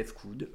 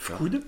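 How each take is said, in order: First: "F Coud" as two parts, the letter name "effe", then "Coud"; letter spelled out. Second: "F Coud" run together as one word, Fcoud. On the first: Artist allowing the other way of saying his name, "[name]" with the letter named. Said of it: "mais tu peux le prononcer". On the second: Artist showing how he says his name, "[name]" in one go. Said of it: "je le prononce d'une traite". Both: Shown as a demonstration.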